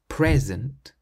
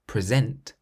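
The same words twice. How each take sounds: First: The stress is on the first syllable. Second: The stress is on the second syllable. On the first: It is a noun: a gift. "If you stress the first syllable" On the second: It is a verb: to give or to host a show. "But if you stress the second syllable"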